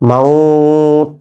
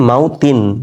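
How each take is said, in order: First: The word ends on t, vowel drawn out. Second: The word ends with a final vowel and n. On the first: The reader stops at this word. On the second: The reader continues without stopping.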